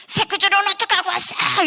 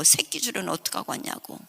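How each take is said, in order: First: High, loud scolding stepmother; angry stepmother. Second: Said in the usual way. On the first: Retold or imitated. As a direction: snap at the husband accusingly. Stepmother scolding father sharply. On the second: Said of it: "아버지 보고".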